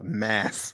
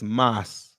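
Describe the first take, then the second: First: The vowel sounds like the one in 'cat'. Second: The vowel sounds like the one in 'cot'. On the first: The speaker calls it wrong. "Oh my God, Mass" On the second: The speaker calls it right. "at least say it correctly, please. It's Moss"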